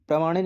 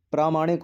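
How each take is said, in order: First: प्रामाणिक with a short first vowel, 'pra-maanik'; incorrect short vowel. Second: प्रामाणिक with a long first vowel, 'praa-maanik'; correct long vowel. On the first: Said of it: "नहीं होता". (प्रामाणिक में 'प्रा' को छोटा 'प्र' बोलें) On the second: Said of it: "होता है". (प्रामाणिक में लंबा 'प्रा' बोलें) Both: Shown as a demonstration.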